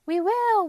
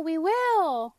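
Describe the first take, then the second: First: Loud, much higher shout; called out in chorus. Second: Loud, higher shout, a little less than the first; called out in chorus, echoed. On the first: Vegetables shouting their promise to Anton, loud cheer. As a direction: cheer it out like a happy crowd. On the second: Vegetables repeating their promise, loud cheer. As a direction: cheer it back as the echo. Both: A narrator's reading. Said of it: "called the vegetables in chorus".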